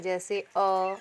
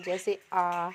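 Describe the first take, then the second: First: A quick, clipped अ after जैसे; short vowel अ. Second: आ held twice as long as अ; long vowel आ. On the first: Teacher to pupils, sounding the short vowel अ. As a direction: say अ short, one beat only. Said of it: "इन्हें आप मूल स्वर भी कह सकते हैं". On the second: Teacher to pupils, sounding the long vowel आ. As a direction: draw out आ to double length. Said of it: "ह्रस्व से दुगुना समय". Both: Shown as a demonstration.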